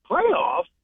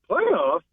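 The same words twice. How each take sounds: First: Incredulous high rising "Playoffs?" in a mild Jim Mora impression. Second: Jim Mora playoffs. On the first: Bettor shows how to ask for swag, mild Jim Mora disbelief. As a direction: pitch "Playoffs?" up in disbelief, half-hearted coach rant. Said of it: "you gotta say it like that". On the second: Retold or imitated. Host repeats the catchphrase for listeners, understated Jim Mora. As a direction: let "Playoffs?" sink flat, barely imitating. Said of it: "you gotta say it like Maury".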